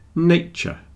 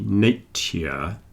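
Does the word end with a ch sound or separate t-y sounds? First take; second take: ch; t-y. First: Said quickly with the ending blended into ch. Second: Said slowly with separate t and y sounds. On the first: "when we're speaking quickly, the T and the Y blend together and you get a little Ch" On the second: "if I said it very slowly, ... you get a T and a Y next to each other"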